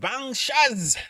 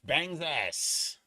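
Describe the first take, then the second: First: The name is said with a 'sh' sound. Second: The name is said with an 's' sound. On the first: The speaker calls it right. "It's pronounced Bangshaz" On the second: The speaker calls it wrong. "not Bang's ass"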